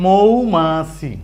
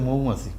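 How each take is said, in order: First: মৌমাছি slow, each syllable drawn out. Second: Said in the usual way. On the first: Shown as a demonstration. Teacher shows reading at a glance, syllable by syllable. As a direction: stretch মৌমাছি into three clear beats. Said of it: "direct এটার দিকে চাইলেই পরে ফেলতে পারবেন". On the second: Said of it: "শব্দ হয়ে গেছে".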